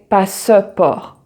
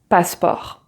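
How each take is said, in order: First: The middle E is sounded as a vowel. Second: The middle E is silent. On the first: The speaker calls it wrong. "you don't say passeport" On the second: The speaker calls it right. "but passport"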